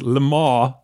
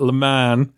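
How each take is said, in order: First: The name is said with a French pronunciation. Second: The name is said with an English pronunciation. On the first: "he tried to convince me that the race that takes place in Ford v Ferrari is Le Mans" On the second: "not Le Mans"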